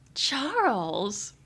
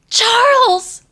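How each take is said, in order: First: The name is said in a flirty tone. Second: The name is said in a worried tone.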